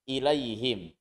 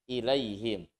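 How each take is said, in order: Both takes have the same delivery.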